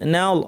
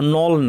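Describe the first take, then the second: First: The vowel sounds thin and light. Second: The vowel sounds heavy and rounded. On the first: The speaker calls it right. "এখানে নুন পাতলা" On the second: The speaker calls it wrong. "নল না"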